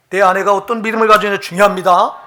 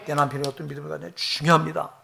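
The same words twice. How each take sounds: First: Louder, with rising fervour on 가지느냐; emphatic sermon climax; loud preaching. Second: Said in the usual way. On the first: Real, not acted. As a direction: press the point home to the congregation. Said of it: "preacher building up". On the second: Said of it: "parallel line, dropped back".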